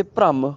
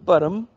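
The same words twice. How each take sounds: First: ਭ੍ਰਮ as "pram", r joined on; half r cluster. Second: ਭਰਮ as "par-am", vowel before r; full first vowel. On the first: Teacher contrasting two words, ਭ੍ਰਮ as "pram". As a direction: join ਭ and ਰ at the start of ਭ੍ਰਮ. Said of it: "ਕਿੰਨਾ ਫਰਕ ਹੈ". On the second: Teacher contrasting two words, ਭਰਮ as "par-am". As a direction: separate the first consonant of ਭਰਮ from its r. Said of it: "ਭਰਮ ਤੇ ਭ੍ਰਮ ਕਿੰਨਾ ਫਰਕ ਹੈ". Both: Shown as a demonstration.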